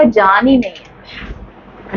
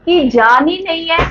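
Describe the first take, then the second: First: Lifeless voice. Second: Said in the usual way. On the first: Shown as a demonstration. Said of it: "आपको आपकी body में ऐसा लगेगा". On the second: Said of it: "क्या चीज है?".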